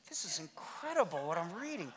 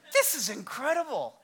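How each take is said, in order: First: Soft, awed murmur to yourself; low-volume, private wonder; hushed amazement. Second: Said in the usual way. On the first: Acted. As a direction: marvel quietly as you read. Acts reader's awe at the Bible.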